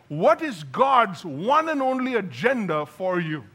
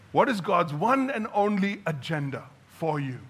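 First: It is yelled loudly. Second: It is said calmly and quieter.

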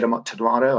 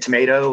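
First: The middle vowel is a broad British ah. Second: The middle vowel is an American ay. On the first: This is the pronunciation the speaker does not use. "I don't say tomato" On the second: This is the pronunciation the speaker uses. "I say tomato"

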